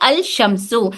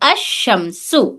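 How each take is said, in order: First: The l sound is pronounced before the sh. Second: The l merges into a doubled sh sound. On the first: The speaker calls it wrong. "फिर इस लाम को नहीं पढ़ा जाएगा" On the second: The speaker calls it right. "लाम को नहीं पढ़ के अशमसु पढ़ेंगे"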